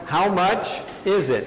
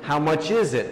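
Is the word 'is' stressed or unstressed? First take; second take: unstressed; stressed. First: The word 'is' is not stressed. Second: The word 'is' carries the main stress. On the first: The speaker calls it wrong. "muitas vezes com how much is it, vão falar de how much is it" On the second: The speaker calls it right. "com a ênfase da frase em is"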